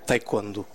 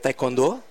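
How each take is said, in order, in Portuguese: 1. É dito com sotaque português do Norte. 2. É dito com sotaque português brasileiro. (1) "aqui no Norte nós costumamos dizer, pelo menos na cidade de Braga" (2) "No Brasil é"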